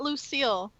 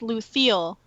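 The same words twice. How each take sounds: First: The s sound is said plainly, without a lisp. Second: The s sound is said with a lisp. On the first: This is the human way of saying the name. The speaker calls it wrong. "It's not Lucille. That's a human name" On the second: This is the elven way of saying the name. The speaker calls it right. "It's Lucille, which is an elven name"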